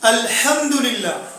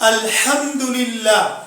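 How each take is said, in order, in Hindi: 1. h गले से निकलने वाली मज़बूत आवाज़ है। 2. h गले से निकलने वाली मज़बूत आवाज़ है।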